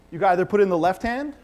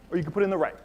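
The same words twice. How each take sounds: First: "left hand" lifted with a rising end; stress on left. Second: Said in the usual way. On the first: Shown as a demonstration. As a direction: lean on "left" as you offer it. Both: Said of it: "I emphasized the word left".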